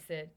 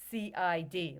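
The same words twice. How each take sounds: First: "sid" said as a single word, like the name Sid; said as one word. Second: "C I D" as three separate letters; letters spelled out. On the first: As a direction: read "sid" as one word, rhyming with "kid". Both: Shown as a demonstration. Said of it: "like I sid".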